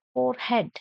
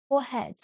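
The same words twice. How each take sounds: First: "forehead" with r sounded; common pronunciation. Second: "Forehead" as foh-hed, silent r; modelled pronunciation. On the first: Teacher drills word twenty-four, "forehead" with clear r. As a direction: pronounce "forehead" as for-hed. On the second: Teacher drills word twenty-four, "Forehead" without r. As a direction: leave the r out of "Forehead". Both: Shown as a demonstration.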